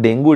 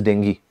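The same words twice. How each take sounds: First: "dengue" pronounced DENG-goo; wrong pronunciation. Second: "dengue" pronounced DENG-ghee; correct pronunciation. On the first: Teacher repeating the mistaken form for students, "dengue" as DENG-goo. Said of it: "exact pronunciation of this word". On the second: Teacher giving students the exact form, "dengue" as DENG-ghee. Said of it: "the exact pronunciation of this word". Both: Shown as a demonstration.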